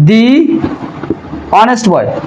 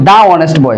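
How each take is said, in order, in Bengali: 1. 'the' শব্দটি 'thee' এর মতো উচ্চারিত হয়। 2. 'the' শব্দটি 'thuh' এর মতো উচ্চারিত হয়। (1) "এর শুরুতে দি উচ্চারিত হবে" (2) "এটা কিন্তু দা অনেস্ট বয় হবে না"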